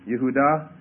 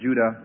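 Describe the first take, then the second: First: The name begins with a Y sound. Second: The name begins with a J sound. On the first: This is the original Hebrew form. "literally the Hebrew word is Yehudah" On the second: This is the anglicized form. "we pronounce it Judah in the transliteration or the way in the anglicized pronunciation"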